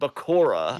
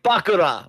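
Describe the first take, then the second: First: The name is said with English pronunciation. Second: The name is said with Japanese pronunciation. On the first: This is how the English-language version says it. "rather than Bakura" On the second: This is how the Japanese-language version says it. "the sub is like Bakura"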